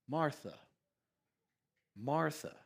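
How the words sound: The name is said gently and warmly. The speaker cares about and loves the listener. The speaker calls it right. "Do you hear his tone? It's tender. It's caring. It's loving. It's kind"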